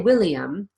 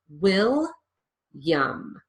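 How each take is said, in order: First: The name is said with three full syllables. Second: The name is said with two syllables, ending in 'yum'. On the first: The speaker calls it wrong. "I don't say William" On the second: The speaker calls it right. "I lose that middle syllable completely"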